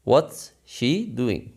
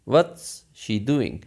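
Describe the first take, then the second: First: What and is are joined into one syllable. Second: The same.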